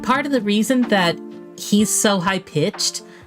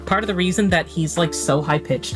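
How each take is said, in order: First: The voice is high-pitched and nasal. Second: The voice is lower and natural. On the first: It is the character's voice. "This is how I make him sound like that" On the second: It is the speaker's own voice. "I'm gonna drop my voice back down again"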